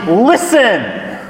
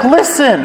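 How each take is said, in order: First: "Listen!" called out a little higher, as a mild exclamation; exclaiming listen. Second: "Listen!" pitched high with happy surprise; excited exclamation. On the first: Woman calls to hear her beloved, mild exclamation. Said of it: "The woman exclaims". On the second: Woman sees her beloved coming, excited surprised call. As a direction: lift "Listen!" like spotting someone you love. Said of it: "It's showing excitement". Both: Retold or imitated.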